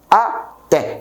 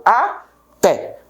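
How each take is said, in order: First: Said in the usual way. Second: Até said slowly as two syllables, a-té; até drawn out slowly, a-té; split into syllables. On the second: Shown as a demonstration. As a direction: break até into a and té for the students. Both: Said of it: "Eu separo até".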